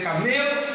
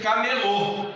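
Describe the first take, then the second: First: Camelo, middle syllable ME stressed. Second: Camelô with the last syllable stressed; stress on final LÔ. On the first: Teacher contrasts two words, camelo stressed on ME. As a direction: lean on ME in camelo. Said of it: "vai deixar de ser camelo". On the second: Teacher moves the tonic syllable, camelô stressed on LÔ. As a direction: land hard on LÔ in camelô. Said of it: "se você passar a sílaba tônica". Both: Shown as a demonstration.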